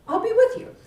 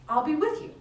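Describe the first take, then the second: First: Much higher and louder, lifting on with; emphatic promise. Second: Said in the usual way. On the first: Acted. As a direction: repeat the promise with big emphasis. God repeats promise louder.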